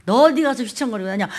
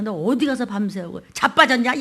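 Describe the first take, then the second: First: Scolding with 어디 punched hard; stress on 어디. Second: Mock-gruff father with 어디 stretched and leaned on; stress on 어디. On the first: Acted. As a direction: press 어디 like a rebuking father. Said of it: "이게 그 소리야". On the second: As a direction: lean on 어디 like a fed-up father. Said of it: "야, 이 소리예요".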